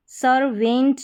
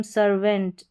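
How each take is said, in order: First: "सर्वेंट" with a full, stressed "e" in "-vent"; wrong full-vowel reading. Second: "सर्वेंट" with a short, weak "-vənt"; correct schwa ending. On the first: Teacher shows learners how not to say it, full-vowel ending. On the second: Teacher gives learners the correct reading, reduced vowel. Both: Shown as a demonstration. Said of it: "सर्वेंट नहीं बोलते हम".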